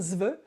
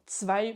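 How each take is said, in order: First: The word begins with a plain 'z' sound. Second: The word begins with a 'tsv' sound. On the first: The speaker calls it wrong. "ne pas dire zve, comme on aurait tendance peut-être à le dire à la française" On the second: The speaker calls it right. "vous accumulez le T, le S et le V"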